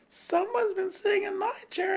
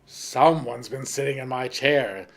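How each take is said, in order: First: The voice is high, small and squeaky. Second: The voice is deep, gruff and rough. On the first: "squeaked the teeny weeny bear in his teeny weeny voice" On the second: "in his great rough voice"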